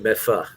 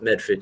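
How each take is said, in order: First: The ending is reduced to a short 'fa'. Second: The ending is said fully with r and d. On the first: This is how locals say it. "You say Medfa" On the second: This is not how locals say it. "if you're from here, you don't call it Medford"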